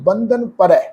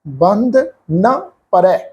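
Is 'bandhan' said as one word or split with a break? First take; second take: one word; split. First: Bandhan is said as one unbroken word. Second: Bandh and na are said as separate words. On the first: The line is read with the word 'bandhan', meaning bonds. "ਕਈ ਸੱਜਣ ਇਸ ਸ਼ਬਦ ਦਾ ਪਾਠ ਉਚਾਰਨ ਕਰਦੇ ਆ" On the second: The line is read as 'bandh na', meaning not bound. "ਕਈ ਸੱਜਣ ਇਸ ਸ਼ਬਦ ਦਾ ਉਚਾਰਨ ਕਰਦੇ ਆ ... ਇਸ ਢੰਗ ਦੇ ਨਾਲ"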